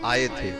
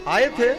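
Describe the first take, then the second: First: It is said as a plain statement. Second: It is said as a question. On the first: Confirms that they came. "आए थे तो ये उत्तर है।" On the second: Asks whether they came or not. "तो ये प्रश्न हो गया"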